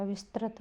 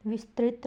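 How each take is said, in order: First: Said in the usual way. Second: विस्तृत said as "vistrit"; wrong vowel. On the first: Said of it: "विस्तृत होता है". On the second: Shown as a demonstration. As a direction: sound an i after the r in विस्तृत. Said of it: "विस्तृत नहीं होता". (विस्तृत में "रि" की आवाज़)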